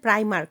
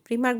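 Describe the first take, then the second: First: The first vowel sounds like 'eye'. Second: The first vowel sounds like 'ee'. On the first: This is how it is usually called. "প্রাইমার্ক যেটাকে বলে" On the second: This is how it is said in France. "ওটা ফ্রান্সে প্রিমার্ক বলে"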